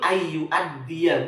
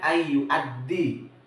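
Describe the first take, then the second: First: The word ends with a final 'a' vowel. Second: The word ends without a final 'a' vowel. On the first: The speaker calls it right. "yang betul ayu addiya" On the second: The speaker calls it wrong. "bukan ayu addi"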